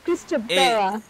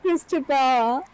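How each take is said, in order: First: The 'bel' syllable has an 'eh' vowel. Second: The 'bel' syllable has an 'ah' vowel. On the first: The speaker calls it right. "It's not A right there. It's E, Bella" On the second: The speaker calls it wrong. "Not Christabella"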